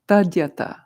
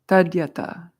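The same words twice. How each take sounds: First: The word begins with 'tad', with a d sound. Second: The same.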